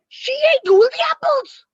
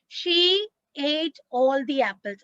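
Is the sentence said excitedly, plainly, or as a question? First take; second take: excited; plain. First: It is said with lively, excited energy. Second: It is said as a plain, calm statement. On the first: The fact is surprising or exciting. "With all excitement" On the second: It simply states a fact. "I will simply say a sentence"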